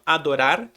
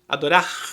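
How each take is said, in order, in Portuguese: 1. O R final é uma batida rápida. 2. O R final é um som raspado na garganta. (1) "O mesmo R que você usou entre o O e o A, você usa no final" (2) "dá uma raspadinha"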